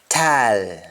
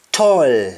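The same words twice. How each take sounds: First: TALL as long open "taal"; Jamaican pronunciation. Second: TALL with rounded "toll" vowel; English-style round vowel in TALL; English pronunciation. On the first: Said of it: "we say al". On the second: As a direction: say TALL as "tawl". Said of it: "instead of saying all". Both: Shown as a demonstration.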